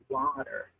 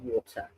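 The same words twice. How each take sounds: First: It is said in an American accent, drawn out. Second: It is said in a British accent, mouth closed. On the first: "if we're going to do an American accent, you elaborate the word" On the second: "English uh, or British people, we they're very much closed mouth"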